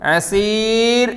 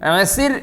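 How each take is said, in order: First: The vowel before the final r is long. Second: The vowel before the final r is short. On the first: The speaker calls it wrong. "അസീർ എന്നില്ല" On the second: The speaker calls it right. "ഹാദാ യൗമുൻ അസിർ എന്നേ ഉള്ളൂ"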